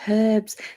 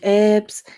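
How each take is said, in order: First: The word begins with an H sound. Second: The word begins without an H sound. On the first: The speaker calls it right. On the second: The speaker calls it wrong.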